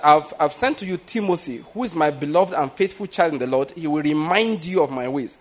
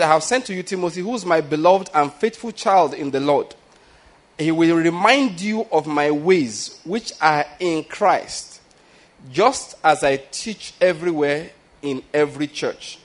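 First: Said in the usual way. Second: Slow, weighty reading with "remind" drawn out; slow scripture reading. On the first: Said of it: "Now, you notice something here". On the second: Shown as a demonstration. Preacher reading Paul's letter to the church, slow and weighty. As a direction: read Paul's words slowly, letting each phrase land. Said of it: "Please, there's something here".

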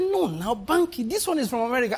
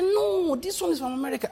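First: A friend pressing, voice pitched higher; friend insisting. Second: Higher-pitched insistent friend, brushing off doubt; friend insisting. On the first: Friend urging Banky to invest in American scheme, higher eager insistence. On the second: Friend repeating the scheme is from America, higher eager insistence. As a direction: push back eagerly in the friend's voice. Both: Retold or imitated. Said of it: "He said".

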